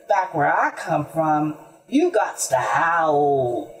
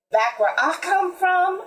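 First: Low hound voice, slowing at the end; declaring hound. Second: High-pitched musing mule. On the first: Hound answers the mule, low and declaring. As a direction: declare it low, drawing out howl. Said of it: "declared the hound". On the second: Mule tells the animals about home, high and musing. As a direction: muse it aloud, pitched well up. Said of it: "mused the mule". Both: A narrator's reading.

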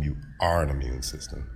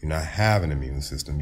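First: ARE weighted as the correction; emphatic ARE, answering have; stress on ARE. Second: Emphatic HAVE, awaiting its correction; stress on HAVE. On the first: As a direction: lean on the word are. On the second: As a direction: HAVE picked out against ARE. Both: Real, not acted. Contrasting having with being.

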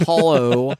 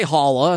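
First: "hollow" ending in a full oh; careful pronunciation. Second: "holla" ending in an uh sound; dialect pronunciation. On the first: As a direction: say "hollow" as HOL-oh. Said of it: "I said hollow". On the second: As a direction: say "holla" as HOL-uh. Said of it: "I didn't say holla". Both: Shown as a demonstration.

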